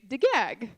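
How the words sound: It is said with g sounds. Some regions of the country say it this way. "some parts of Oman will say degag"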